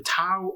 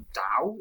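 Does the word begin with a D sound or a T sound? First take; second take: T sound; D sound. First: The word begins with a T sound. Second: The word begins with a D sound. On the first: The speaker calls it wrong. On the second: The speaker calls it right.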